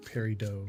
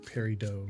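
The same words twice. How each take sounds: First: The word is said the French way. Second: The same.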